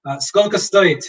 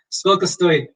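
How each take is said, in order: First: Сколько стоит with stress "SKOL'-ka STO-it"; Russian skolko stoit. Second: Сколько стоит again, "SKOL'-ka STO-it"; Russian skolko stoit repeated. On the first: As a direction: ask сколько стоит slightly higher. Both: Shown as a demonstration. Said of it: "so how much does it cost?".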